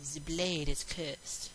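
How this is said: It is said in a put-on accent. "Why am I using this accent?"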